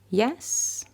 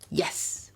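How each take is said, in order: First: The pitch goes up at the end. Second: The pitch goes down at the end. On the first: The speaker is unsure. "Rising in intonation" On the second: The speaker is definite and sure. "there's my voice going down"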